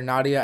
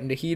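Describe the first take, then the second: First: The name is said without an h sound. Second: The name is said with an h sound. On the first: The speaker calls it wrong. "I usually usually call her Nadia" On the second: The speaker calls it right. "I think it's called Nahida"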